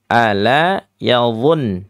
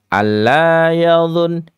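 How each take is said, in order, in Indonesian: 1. Bunyi l dibaca tunggal dan pendek. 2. Bunyi l dibaca ganda dan ditahan. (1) "Ini ala" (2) "kita sering ya mendengarkan adik-adik ini kalau baca alla yadhun"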